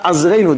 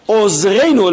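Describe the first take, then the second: First: The first vowel is an 'a' sound. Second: The first vowel is an 'o' sound. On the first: The speaker calls it wrong. "not Azreinu" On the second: The speaker calls it right. "Ozreinu Elokei Yishainu"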